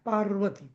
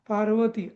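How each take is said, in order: First: The first syllable is stressed, joined to r. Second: The first syllable is said without stress. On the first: The speaker calls it right. "पा नंतर र ला आघात द्यायचा आहे" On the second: The speaker calls it wrong. "असं नाही म्हणायचं"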